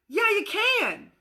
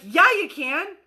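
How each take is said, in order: First: Higher, slow, fond reassurance; encouraging. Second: Said in the usual way. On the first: Acted. Adult encouraging the kid who says he can fly. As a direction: cheer the kid on gently. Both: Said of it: "we're like".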